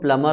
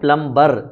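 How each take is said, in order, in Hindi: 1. "m" के बाद "b" की आवाज़ नहीं आती। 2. "b" की आवाज़ "m" के बाद बोली जाती है। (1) "बट एक्चुअली में वो प्लमर होता है" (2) "हम बोलते हैं प्लम्बर, बी भी यूज करते हैं"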